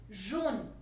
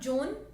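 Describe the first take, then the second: First: It starts with a soft zh sound. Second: It starts with a hard j sound. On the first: The speaker calls it right. "it's jaune, j with a little sh sound" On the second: The speaker calls it wrong. "So it's not jaune"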